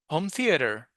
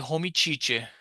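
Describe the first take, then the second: First: Theater starts with a clear th sound. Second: Theater starts with a ch-like sound. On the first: The speaker calls it right. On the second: The speaker calls it wrong.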